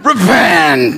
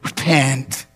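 First: It is said in a harsh, annoyed tone. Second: It is said in a gentle, caring tone. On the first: The speaker is irritated with the listeners. The speaker calls it wrong. "No, that's not the tone he said" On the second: The speaker lovingly invites the listeners to change. The speaker calls it right. "It was a voice of compassion. It was like this"

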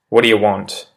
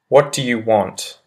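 First: The words are run together and reduced, quickly. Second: Every word is said fully and separately. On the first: "I'll repeat the pronunciation shift one" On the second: "I say the proper English phrase"

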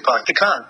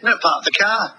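First: It is said in a Rhode Island accent. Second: It is said in an English accent.

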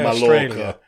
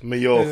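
First: The double L is said as an L sound. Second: The double L is said as a Y sound. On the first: The speaker calls it wrong. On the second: The speaker calls it right. "Double L is a Y in Spanish"

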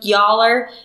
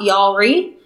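First: It is said in two syllables, like 'y'all are'. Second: It is said in three syllables, ending in 'ree'. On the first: The speaker calls it right. "It is y.all.re" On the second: The speaker calls it wrong. "It's not Y'allery"

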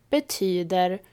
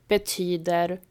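The two takes are said the same way.

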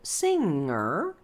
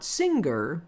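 First: The NG ends with no G sound. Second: The NG is followed by a G sound. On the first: The speaker calls it right. "There's no G" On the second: The speaker calls it wrong. "It's not"

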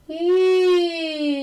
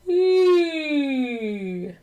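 First: It is placed forward in the face. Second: It is placed back, like a yawn.

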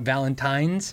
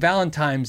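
First: The last syllable sounds like 'tine', with an n. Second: The last syllable sounds like 'time', with an m. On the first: "and not Valentine's" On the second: "I thought it was called Valentine's Day. Like time"

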